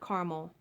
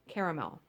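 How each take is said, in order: First: The word is said with two syllables. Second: The word is said with three syllables. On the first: "and not caramel" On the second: "there is an extra A. That's how I say it"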